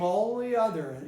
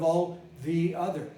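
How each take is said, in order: First: The 'th' sound is absorbed into the L. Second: The 'th' sound is pronounced clearly and separately. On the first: The speaker calls it right. "became all the other" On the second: The speaker calls it wrong. "instead of all the other"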